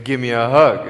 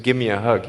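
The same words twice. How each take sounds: First: Louder insistent Give me a hug; insistent repeat. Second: Said in the usual way. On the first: Retold or imitated. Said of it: "I said". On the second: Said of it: "He said".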